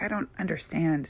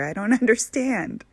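First: Said in the usual way. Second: Higher and louder, laughing through it; laughing disbelief. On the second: Retold or imitated. Arguing, laughs mid-line.

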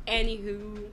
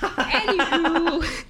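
First: Said in the usual way. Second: High, slow, laughing anywho; silly drawn-out anywho. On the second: Acted. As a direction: stretch it out with a laugh.

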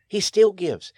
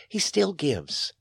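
First: Louder, higher punch on still; he STILL gives, ringing out; emphatic repeat. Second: Said in the usual way. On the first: Shown as a demonstration. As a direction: hammer the repeat home.

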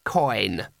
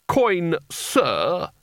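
First: Low, understated one-word reply; terse boy's answer. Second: Higher, indignant snap; snapped correction. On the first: Acted. Boy gives the wizard his name, low and terse. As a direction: give the name low and unimpressed. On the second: A narrator's reading. Spelter corrects the boy's manners, snapping sharply. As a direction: snap the correction with a sudden lift. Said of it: "snapped Spelter".

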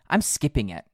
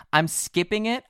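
First: A little out of breath; winded, catching breath; after a workout. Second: Out of breath, rising at the end; puffing between the words; after a workout. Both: Real, not acted. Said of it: "I'm catching my breath".

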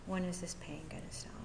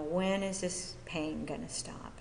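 First: Softer, quicker retold plea; hushed plea. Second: Said in the usual way. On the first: Newcomer asking her sponsor about pain, hushed. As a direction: let the question sink towards a whisper.

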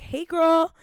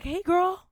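First: Put-on much higher and louder breezy "Hey, girl."; imitating Sam. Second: Put-on much higher, sing-song "Hey, girl." as a breezy greeting; imitating Sam. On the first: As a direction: chirp "Hey, girl." like an old friend. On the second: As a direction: chirp "Hey, girl." like nothing happened. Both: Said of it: "She's like".

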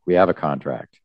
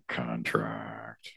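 First: Said in the usual way. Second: Contract, voiceless and hushed, repeated for effect; murmured aside repeating contract; whispered echo. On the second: Shown as a demonstration. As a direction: breathe the word contract as a whisper. Echoes the line as a whisper.

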